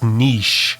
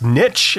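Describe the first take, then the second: First: The word does not rhyme with 'riches'. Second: The word rhymes with 'riches'. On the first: This is how it is said outside the United States. "if you live in Canada or the E U or anywhere else, it's niche" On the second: This is how it is said in the United States. "if you live in the U S, it's pronounced niche, as in there's riches and niches"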